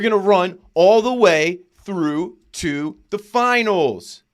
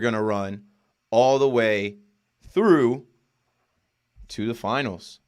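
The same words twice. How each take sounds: First: The voice sounds firm and confident. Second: The voice sounds hesitant and unsure. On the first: The speaker calls it right. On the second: The speaker calls it wrong.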